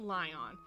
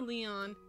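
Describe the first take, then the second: First: The name sounds like the word lion. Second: The name sounds like lee-on. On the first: "I pronounce it Lion" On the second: "You can say Leon"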